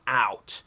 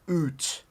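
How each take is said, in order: First: It is said with a non-Canadian accent. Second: It is said with a Canadian accent. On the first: The speaker calls it wrong. "It's not out" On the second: The speaker calls it right. "That's how we say it in Canada"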